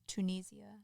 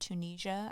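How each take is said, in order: First: It is said in a British accent. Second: It is said in an American accent.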